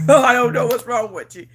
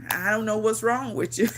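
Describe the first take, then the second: First: Laughing. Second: Said in the usual way. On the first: Real, not acted. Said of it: "repeats line laughing louder". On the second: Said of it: "repeats line, second take laughing".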